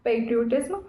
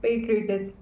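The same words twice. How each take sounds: First: Put-on PATRIOTISM said the speaker's old way, as spelled; spelling-based reading of "patriotism"; former pronunciation. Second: PATRIOTISM said in the newly learned way; careful learned form of "patriotism"; corrected pronunciation. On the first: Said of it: "earlier I used to pronounce it". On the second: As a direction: say "patriotism" as learned, not as spelled. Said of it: "it is called patriotism". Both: Shown as a demonstration.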